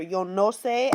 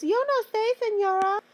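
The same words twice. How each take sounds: First: Said in the usual way. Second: Very high-pitched mock student voice; student imitation. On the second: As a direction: play a clueless pupil, pitched way up. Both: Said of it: "Every student's favorite phrase".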